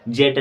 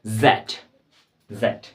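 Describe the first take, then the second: First: जेड said the way some people wrongly say the letter Z; deliberately mispronounced जेड for contrast. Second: जेड said as the proper British name of the letter Z, zed; carefully pronounced जेड as the right version; correct way to say it. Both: Shown as a demonstration. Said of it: "जेड नहीं होता है".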